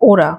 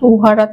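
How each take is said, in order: First: The middle h sound is dropped. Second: The middle h sound is pronounced. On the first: This is the colloquial spoken form. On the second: This is the full written form.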